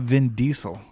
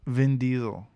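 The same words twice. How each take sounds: First: Diesel with a hissed S, DEE-sel. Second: Diesel with a buzzed Z, DEE-zel. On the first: Rejecting friend's version, Diesel said with an S. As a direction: say Diesel with an S instead of Z. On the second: Correcting friend on the name, Diesel said with a Z. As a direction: say Diesel with a Z in the middle. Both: Shown as a demonstration. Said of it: "it's not Vin Diesel".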